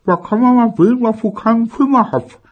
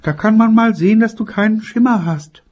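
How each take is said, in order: First: High, loud, mumbled grumble; grumbling with ice in mouth. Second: Grumbling mother. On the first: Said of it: "maulte seine Mutter". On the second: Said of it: "und das hieß und heißt es immer noch". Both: Acted.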